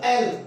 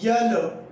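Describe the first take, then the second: First: It begins directly with a plain vowel. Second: It begins with a 'y' sound before the vowel. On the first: The speaker calls it right. "इसका होगा एल" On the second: The speaker calls it wrong. "जो कि wrong है"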